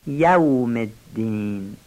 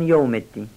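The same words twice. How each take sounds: First: یوم slow and lower as "ya-wm"; careful, drawn-out یوم الدین with a full "yaw"; clear fatha and waw. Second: یوم said wrongly as "yom"; fatha turned damma. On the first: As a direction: sound both the a and the w in یوم. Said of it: "فتحهٔ یا رو واضح بگن". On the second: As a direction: say یوم الدین with an o for the a. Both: Shown as a demonstration.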